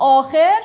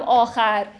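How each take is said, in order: First: آخر said "aakher", with e in the last syllable; e pronunciation. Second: آخر said "aakhar", with a in the last syllable; a pronunciation. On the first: Teacher showing students that either reading will do, e pronunciation. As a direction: pronounce آخر as aa-kher. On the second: Teacher showing students that either reading will do, a pronunciation. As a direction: pronounce آخر as aa-khar. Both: Shown as a demonstration. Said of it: "تلفظش خیلی گیر ندید".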